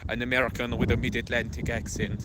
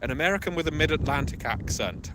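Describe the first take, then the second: First: Quick, hammed-up mid-Atlantic American accent; mock mid-Atlantic accent. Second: Raised, loud, quick mock quote; mimicked former stalker. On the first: Correcting himself as he quotes the stalker, mock mid-Atlantic accent. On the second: Quoting a former stalker's claim about his accent, mocking higher voice. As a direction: hurl it out higher and faster, mimicking. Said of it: "one former stalker used to say".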